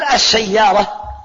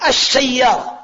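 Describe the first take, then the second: First: "السيارة" drawn out slowly as ash-shayyara, no l sounded; slow spoken pronunciation. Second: "السيارة" said with the lam assimilated, as ash-shayyara; spoken pronunciation. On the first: Teacher slowly showing students how "السيارة" is pronounced. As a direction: stretch "السيارة" slowly with the doubled sh and a silent lam. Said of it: "لكن أنا أقول". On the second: Teacher demonstrating "السيارة" as ash-shayyara to students. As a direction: say "السيارة" with a doubled sh and no l heard. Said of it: "لما أنطقها عربية أقول". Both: Shown as a demonstration.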